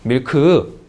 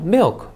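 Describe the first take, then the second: First: The word is said as two syllables. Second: The word is said as one syllable. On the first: "이음절. 못 알아들어요" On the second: "이름절"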